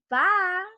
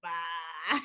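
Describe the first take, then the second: First: Bye in a Georgia drawl, higher and louder; Georgia Southern accent. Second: Bye in a low, mocking Texas twang; mock Texas accent. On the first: Acted. Drunk Georgian showing how home says it, proud Georgia accent. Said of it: "where we come from, we say". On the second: Drunk Georgian parodying his goodbye, mocking Texas accent. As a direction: imitate a fake Texan "Bye," pitched way down. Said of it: "like you were from Texas or something".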